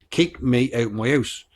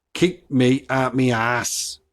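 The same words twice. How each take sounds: First: Slow, careful "out" and "house" with full "ow"; standard translation. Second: Slow Black Country phrase, "out" as "at"; Black Country accent. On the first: Podcaster translating for listeners, slow standard "out" and "house". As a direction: say "out my house" slowly in standard vowels. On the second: Podcaster decoding a local saying, slow Black Country accent. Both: Shown as a demonstration. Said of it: "which means".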